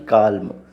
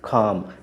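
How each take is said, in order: First: The L sound is pronounced in the word. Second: The L sound is left out of the word. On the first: The speaker calls it wrong. "ना कि काल्म" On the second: The speaker calls it right. "एल को silent रखा जाता है"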